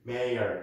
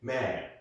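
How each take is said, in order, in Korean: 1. 미국식 억양으로 발음합니다. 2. 영국식 억양으로 발음합니다.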